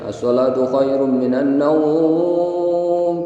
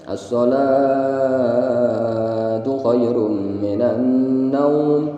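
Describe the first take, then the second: First: The last word naum is drawn out long. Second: The first word salatu is drawn out long. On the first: Listeners hear an invitation to keep sleeping. The speaker calls it wrong. "panjang naumnya" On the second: Prayer is emphasized as better than sleep. The speaker calls it right. "dipanjangkan yang sholahnya"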